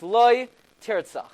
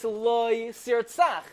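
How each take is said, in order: First: A break follows the first word; the second starts with t. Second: The words run together; the second starts with s. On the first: "there's a pause after the loy" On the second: "the word loy and sir tzach go together"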